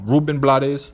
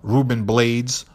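First: The name is pronounced the Spanish way. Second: The name is pronounced the English way.

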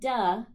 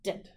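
First: The d sound has a vowel added after it. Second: The d sound is short and clipped. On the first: The speaker calls it wrong. "And it's not duh. We don't want to have that sound on the end" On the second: The speaker calls it right. "It's a very short clipped sound"

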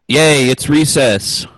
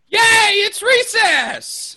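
First: It is said in a flat, unexcited tone. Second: It is said in an excited tone.

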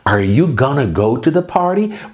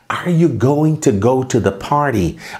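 First: Going to is run together quickly as gonna. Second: Going to is said fully as separate words.

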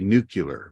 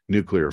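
First: It is pronounced as nucular, ending in cular. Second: It is pronounced as nuclear, ending in clear. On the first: The speaker calls it wrong. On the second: The speaker calls it right.

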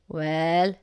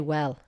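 First: The word is said with strong emphasis. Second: The word is said plainly and flatly.

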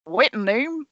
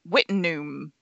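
First: It is said in a put-on Australian accent. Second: It is said in the speaker's own accent.

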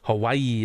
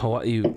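First: It is said with an American pronunciation. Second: It is said with a Hawaiian pronunciation. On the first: The speaker calls it wrong. "some people will say Hawaii" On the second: The speaker calls it right. "I'm glad you say the Hawaii properly"

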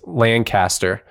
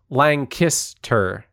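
First: It does not sound like Lang-kiss-tur. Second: It sounds like Lang-kiss-tur. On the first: This is how people elsewhere say it. The speaker calls it wrong. "everywhere else in the entire country and or world is Lancaster" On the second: This is how locals say it. The speaker calls it right. "And it is Lancaster"

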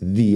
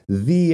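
First: The vowel is a short 'uh' sound. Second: The vowel is a long 'ee' sound.

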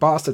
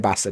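First: It is said in a southern English accent. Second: It is said in a northern English accent. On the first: "sounds a bit weird" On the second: "you can say bastard"

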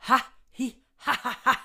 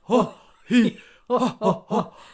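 First: It is said in a normal voice. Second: It is said in a Santa Claus voice.

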